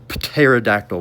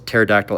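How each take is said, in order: First: The starting p is pronounced. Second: The starting p is silent.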